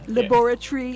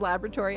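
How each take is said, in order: First: It is said with a British pronunciation. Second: It is said with an American pronunciation. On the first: The speaker calls it right. "I like the British pronunciation" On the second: The speaker calls it wrong. "instead of"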